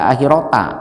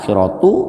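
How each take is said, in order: First: The word ends with an a vowel. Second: The word ends with a u vowel. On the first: "tidak dibaca akhirota" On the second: "tidak dibaca akhiratu"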